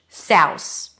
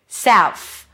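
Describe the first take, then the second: First: The word ends with an S sound. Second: The word ends with an F sound. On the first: "or put an S instead of the final TH" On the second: "or an F"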